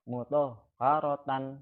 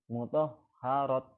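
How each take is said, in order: First: The word ends with a 'tan' syllable. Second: The word ends with a t sound.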